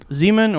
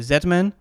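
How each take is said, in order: First: It is said the non-Canadian way, with 'zee'. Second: It is said the Canadian way, with 'zed'.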